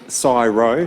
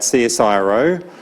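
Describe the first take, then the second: First: The name is said as two syllables, psi-ro. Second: The name is spelled out as separate letters.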